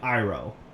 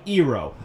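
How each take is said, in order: First: The name is said the familiar cartoon-show way. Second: The name is said the film's altered way. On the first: This is how the original show says it. The speaker calls it right. "I'm just gonna pronounce their names like it is in the show" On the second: This is how the filmmakers chose to say it. The speaker calls it wrong. "I mean"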